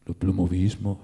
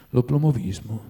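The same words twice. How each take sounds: First: Puzzled, questioning echo of the word L'oplomovismo; perplexed. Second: Said in the usual way. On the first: A narrator's reading. The writer echoing Stolz's strange word, perplexed. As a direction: repeat L'oplomovismo as a baffled question. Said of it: "ripeté il letterato perplesso". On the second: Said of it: "disse Stolz".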